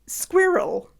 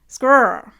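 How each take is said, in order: First: It is said with two syllables, British style. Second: It is said as one syllable, Canadian style. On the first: "Brits say squirrel" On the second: "Canadians say squirr"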